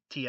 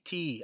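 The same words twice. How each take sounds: First: The vowel is short. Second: The vowel is long. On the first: The speaker calls it wrong. "it wouldn't just be tea" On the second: The speaker calls it right. "you'd have to extend the vowel in tea"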